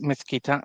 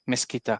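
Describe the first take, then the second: First: The z is said with a 'th' sound. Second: The z is said with an 's' sound. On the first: "the proper, like you wrote before, the Castilian" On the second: "they would say mezquita instead"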